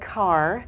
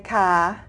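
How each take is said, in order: First: The final R sound is pronounced. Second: The final R sound is dropped. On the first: "they do pronounce their R" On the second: "They don't say ka"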